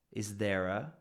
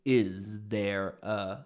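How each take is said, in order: First: "Is there a" run together into one quick word; linked as one word. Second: "Is there a" said very slowly, every word apart; separated words. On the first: Teacher showing the natural linked form. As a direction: blend "Is there a" smoothly. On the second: Teacher showing the careful form students don't need. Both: Shown as a demonstration. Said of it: "you don't have to say".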